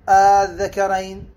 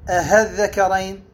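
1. تبدأ الكلمة بمدّ عادي. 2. تبدأ الكلمة بصوت هاء واضح. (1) "ولا ينطق بها ألف خالصة" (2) "لا ينطق بها هاء خالصة"

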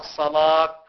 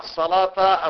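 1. تنتهي الكلمة بصيغة الوقف -ah. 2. تنتهي الكلمة بحركة قصيرة -ta. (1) "وأما في المرة الثالثة فالوقف" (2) "بنصب لفظ الصلاة في المرة الأولى والثانية"

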